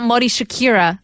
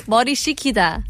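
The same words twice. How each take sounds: First: Mori [name] said like the singer's name [name]; [name] mispronounced. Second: Mori Shikida said carefully as shi-ki-da; correct pronunciation. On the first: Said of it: "Sound like you said [name]". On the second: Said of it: "It's not Mori [name]". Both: Shown as a demonstration.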